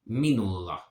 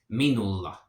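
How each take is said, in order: No difference in how they are said.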